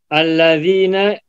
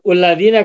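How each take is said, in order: First: The word begins with an 'a' vowel. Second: The word begins with a 'u' vowel. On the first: The speaker calls it right. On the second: The speaker calls it wrong.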